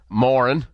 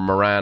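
First: The name is said in a non-American accent. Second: The name is said in an American accent.

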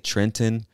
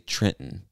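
First: The second T is clearly pronounced. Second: The second T is silent. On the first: "Some people would say Trenton" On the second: "I would say Trenton. So that second T becomes silent"

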